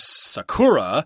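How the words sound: It is said with an English-style pronunciation. "if you're using English pronunciation, you'll pronounce this word as"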